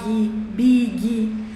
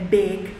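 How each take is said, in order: First: An extra vowel sound follows the final consonant. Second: It ends cleanly on the final consonant. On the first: The speaker calls it wrong. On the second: The speaker calls it right.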